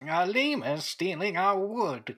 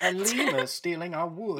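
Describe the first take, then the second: First: Put-on slow, creaky old man voice. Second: Laughing. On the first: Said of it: "Say it in the old man voice again". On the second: Real, not acted. Players joking, laughing at the lemur.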